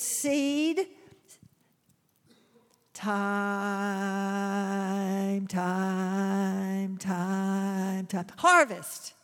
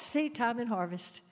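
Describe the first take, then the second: First: There is a pause before the final word. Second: The phrase runs together without a pause. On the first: Time passes between planting and harvest. The speaker calls it right. "In reality, with a farmer, it's seed time, harvest" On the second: Harvest comes right after planting. The speaker calls it wrong. "we usually say it like this"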